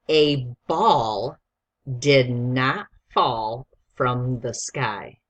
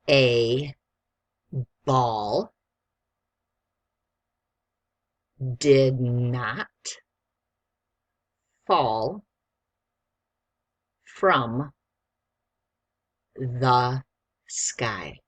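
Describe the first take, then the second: First: The sentence is read at a quick pace. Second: The sentence is read at a slow pace. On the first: "I'm going to read it quickly first" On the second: "Do you need me to read it slower?"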